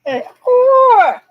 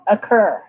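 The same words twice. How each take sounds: First: "occur" said as a drawn-out, high, loud "ocKOR"; "occur" mocked as a strange accent, high and loud; odd occur pronunciation. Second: Said in the usual way. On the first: Shown as a demonstration. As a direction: play with "occur" as if a strange accent, rounded "kor". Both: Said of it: "what type of a slang or accent is occur".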